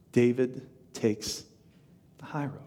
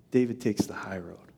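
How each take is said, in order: First: "David takes" drawn out slowly, then a pause; deliberate pauses. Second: Said in the usual way. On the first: Real, not acted. Point repeated slowly for weight.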